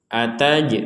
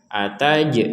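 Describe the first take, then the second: Both takes have the same delivery.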